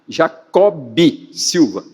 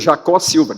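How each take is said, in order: First: The name is said with the final b sound. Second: The name is said without the final b sound. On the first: The speaker calls it right. "Ele insistia tanto na escrita como na pronúncia, que incluísse o B" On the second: The speaker calls it wrong. "cortavam o B"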